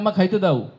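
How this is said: The verb is said in a regional dialect form. The speaker calls it wrong. "সরে যাচ্ছেন একটি প্রমিত উচ্চারণ থেকে"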